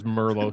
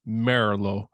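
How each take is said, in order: First: The name is said with English pronunciation. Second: The name is said with Italian pronunciation. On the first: This is the common everyday form. "everybody says Merlo" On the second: This is the fully correct original form. "the Italian pronunciation is Merlo"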